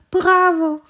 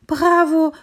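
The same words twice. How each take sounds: First: Second bravo even higher, loud and thrilled; cheering bravo. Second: Bravo called out high and loud, delighted; cheering bravo. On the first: Tree cheering its friend's salto again, high loud cheer. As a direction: keep cheering, louder still. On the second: Little tree cheering the hare's first salto, loud excited call. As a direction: cheer the hare on at full voice. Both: Acted. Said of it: "rief das Bäumchen".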